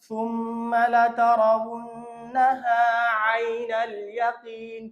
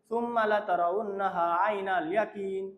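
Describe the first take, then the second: First: The phrase uses Arabic-style consonant sounds. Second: The phrase uses Bengali-style consonant sounds. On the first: The speaker calls it right. "আবার পড়তেছি, খেয়াল করেন" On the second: The speaker calls it wrong. "এরকম বলা যাবে না"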